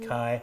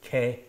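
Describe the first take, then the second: First: The vowel is an 'eye' diphthong. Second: The vowel is a plain 'eh' sound. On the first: This is the older ancient pronunciation. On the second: This is how it sounded by the early centuries AD. "alpha iota being pronounced A, so it would be K"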